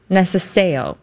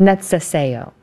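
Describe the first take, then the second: First: "necesejo" with the C as a plain S, "nessa-SAY-oh"; mispronounced C. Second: "Necesejo" with C as TS, "nets-eh-SAY-oh". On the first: Host's first try at "necesejo", C said as S. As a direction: say "necesejo" softening C to S. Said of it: "C is pronounced like a T S". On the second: Host repeating corrected "Necesejo", C said as TS. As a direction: copy the TS sound in "Necesejo". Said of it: "pronounced like a T S sound". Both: Shown as a demonstration.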